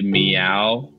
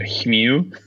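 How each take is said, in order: First: The word begins with a clear m sound. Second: The word begins with a breathy h-like sound. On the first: This is the word the kid meant to say. The speaker calls it right. "he tried to say meow" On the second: This is how the word actually came out. The speaker calls it wrong. "but it came out hmew"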